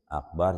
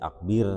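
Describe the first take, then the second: First: The last syllable has an 'a' vowel. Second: The last syllable has an 'i' vowel. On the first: The speaker calls it right. "Akbar jadi akber" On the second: The speaker calls it wrong. "jadi akbir"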